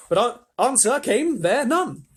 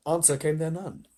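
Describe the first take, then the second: First: High, loud, drawn-out narration; dramatic declaiming. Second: Said in the usual way. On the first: A narrator's reading. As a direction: declaim it slowly and grandly. Narrator relishes line, then repeats.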